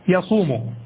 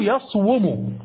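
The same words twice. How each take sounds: First: Said in the usual way. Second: يصوم said as yaṣwumu, waw voiced with its own vowel; original underlying form. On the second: Shown as a demonstration. Teacher giving students the original form of يصوم, carefully sounded out. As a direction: sound out يصوم with the w and u kept apart: yaṣ-wu-mu. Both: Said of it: "أصله".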